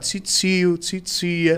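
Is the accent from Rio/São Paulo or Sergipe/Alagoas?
Rio/São Paulo. It is said in a Rio/São Paulo accent.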